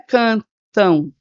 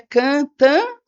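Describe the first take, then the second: First: The last syllable ends in a nasal u glide. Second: The last syllable ends in a plain nasal vowel. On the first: The speaker calls it right. "esse M tem som de U, porque eu falo cantão" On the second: The speaker calls it wrong. "mas é cã-tã"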